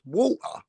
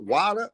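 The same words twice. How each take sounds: First: "water" as waw-tuh, no r; British "water", said as the right version; British pronunciation. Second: "water" as wah-der, held up as wrong; mock-American "water"; American pronunciation. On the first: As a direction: correct to British "water" with a rounded aw. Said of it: "It's water". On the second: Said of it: "Not water". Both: Shown as a demonstration.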